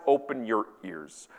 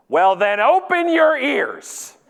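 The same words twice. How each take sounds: First: Lower, softer, slow quotation; deadpan quote. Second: High, loud, drawn-out mock scolding; snapped rebuke. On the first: Acted. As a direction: read out the rebuke slowly and understated. Quoting rebuke within the tweet. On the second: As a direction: hammer it out slowly, indignant. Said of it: "looks me right in the eyes and says".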